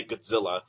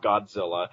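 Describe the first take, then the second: First: Godzilla said as "Gud-zilla"; reduced first vowel. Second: Said in the usual way. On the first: Shown as a demonstration. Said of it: "if I'm speaking really fast". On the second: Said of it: "I'll say Godzilla, not".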